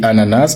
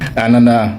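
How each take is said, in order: First: The final S is pronounced. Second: The final S is silent. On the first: It belongs to everyday speech. "avec le S prononcé pour le langage courant" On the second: It belongs to formal speech. "pour le registre soutenu"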